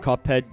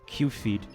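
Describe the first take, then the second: First: It is split as cup plus head. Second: It is split as cue plus feed. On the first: "see the word Cuphead" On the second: "pronounce it Q-feed"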